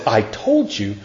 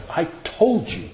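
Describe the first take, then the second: First: Said in the usual way. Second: A hint of a scolding mother, softer; lightly voiced mother warning "I told you"; mom's I told you. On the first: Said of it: "But when God says". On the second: Mother warning her child in trouble, lightly imitated scolding. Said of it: "when my mom said it that way".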